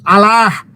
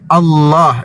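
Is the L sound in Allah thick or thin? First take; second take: thin; thick. First: The L sound is thin and light. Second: The L sound is thick and heavy. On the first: The speaker calls it wrong. "bukan Allah" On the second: The speaker calls it right. "tapi Allah dibaca tebal"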